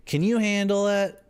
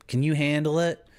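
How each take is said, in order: First: Bigger teasing challenge. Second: A higher, cocky dare; teasing challenge. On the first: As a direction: push the dare over the top. Taunting the chat about coca tea. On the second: Streamer taunting chat about drinking coca tea, cocky dare. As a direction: dare them to keep up. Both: Pretend.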